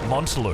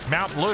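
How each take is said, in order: First: The first syllable sounds like mont, without ow. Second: The first syllable sounds like the word mount. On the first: The speaker calls it wrong. "we've been saying it wrong this long" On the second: The speaker calls it right. "it's like any mountain, like Mount Everest"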